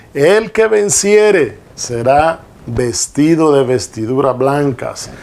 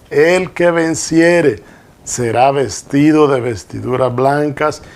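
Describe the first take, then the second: The two takes are said the same way.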